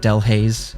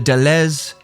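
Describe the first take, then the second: First: The name is said with an American English accent. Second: The name is said with a French accent. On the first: "in the very Anglo version, the very American English uh, accent" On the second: "I'll give it the French accent this time"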